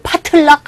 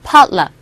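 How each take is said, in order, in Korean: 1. 중간의 t는 따로 떨어진 음절처럼 발음해요. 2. 중간의 t는 부드러운 플랩이에요, l처럼요. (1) "이거 파틀락 하지 마시고" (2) "팔락팔락 한다고 할 때 거의 그런 식의 발음이죠"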